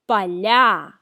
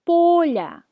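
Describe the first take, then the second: First: The stress is on the last syllable. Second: The stress is on the first syllable. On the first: It is a plural form in the nominative case. "When the last syllable is stressed, it's a plural form in the nominative case" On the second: It is a singular form in the genitive case. "When the first syllable is stressed"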